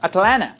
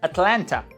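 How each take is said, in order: First: Only the first t sound is pronounced. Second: Both t sounds are pronounced. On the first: "since you don't pronounce the second" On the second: "Some people pronounce this city like Atlanta. So in that case you have T, L, N, T"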